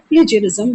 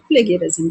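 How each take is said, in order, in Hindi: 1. बीच का व्यंजन नरम 'j' ध्वनि है। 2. बीच का व्यंजन कठोर 'g' ध्वनि है। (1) "इसे कुछ लोग प्लेजरिज्म भी बोलते हैं" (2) "कुछ लोग प्लेगरिज्म भी बोलते हैं"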